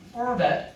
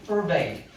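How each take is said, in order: First: The last syllable has a short 'a' vowel. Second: The last syllable has a long 'ay' vowel. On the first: "for that 뒤에다가 e를 붙여도 돼. 대신 발음은 달라져" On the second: "대신 발음은 달라져. 이건 forbade고"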